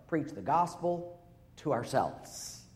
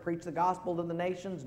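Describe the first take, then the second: First: "ourselves" stressed and slow; slow emphatic answer. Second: Said in the usual way. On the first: Shown as a demonstration. Pastor gives the congregation the right answer, slow and emphatic. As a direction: lean slowly on the answer.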